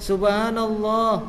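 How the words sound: Said in an imitated woman's voice. A woman is saying it. "Tiba-tiba ada perempuan"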